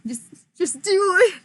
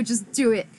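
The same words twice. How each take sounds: First: "just do it" pushed higher and louder; emphatic, louder. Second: Said in the usual way. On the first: Real, not acted. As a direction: urge them, punch "do".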